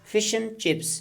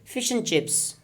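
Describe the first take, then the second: First: The word "and" is reduced to "un". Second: The word "and" is reduced to "un".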